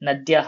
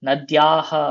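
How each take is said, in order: First: The middle vowel is short. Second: The middle vowel is drawn out long. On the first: It means rivers. "ஆறுகள்" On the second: It means of the river. "ஆற்றினுடைய அப்படின்னு மாறிடும்"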